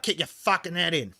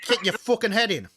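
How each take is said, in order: First: Bogan Australian with the H dropped from "head"; corrected Australian Bogan take, less raised; Bogan accent. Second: Raised-pitch mock threat in Bogan Australian; Bogan accent. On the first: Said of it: "it's more like". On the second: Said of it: "I don't know if I can even do a Bogan accent". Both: Shown as a demonstration.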